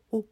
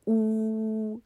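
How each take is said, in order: First: 呜 as a very short, tiny puff; just the lip shape of 呜, barely sounded; 呜 cut short, never held as a vowel; consonant-like 呜. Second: 呜 held long on a high, steady pitch; long, ringing 呜, higher than usual; full vowel 呜. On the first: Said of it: "那它不是念作呜". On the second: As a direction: sing out 呜 as a sustained vowel. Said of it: "那个叫母音". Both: Shown as a demonstration.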